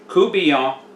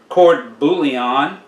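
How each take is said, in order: First: The r and t of court are dropped. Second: The r and t of court are sounded. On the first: The speaker calls it right. "but it's coubillon" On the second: The speaker calls it wrong. "You may think it would be pronounced court"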